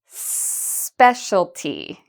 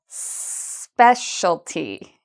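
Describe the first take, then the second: No difference in how they are said.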